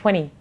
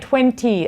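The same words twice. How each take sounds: First: The middle T sound is dropped. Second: The middle T sound is clearly pronounced.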